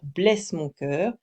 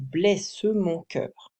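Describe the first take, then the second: First: The final e of blesse is silent, three syllables. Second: The final e of blesse is pronounced, four syllables. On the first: The speaker calls it wrong. "on va pas juste dire blesse mon cœur, qui, ce qui refait trois syllabes" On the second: The speaker calls it right. "c'est blesse mon cœur. Donc quatre syllabes"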